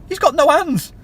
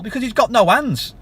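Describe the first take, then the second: First: Higher and louder, hitting "got"; "got" punched hard in an indignant repeat; emphatic repeat. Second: Said in the usual way. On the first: Shown as a demonstration. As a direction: slam the point home a second time.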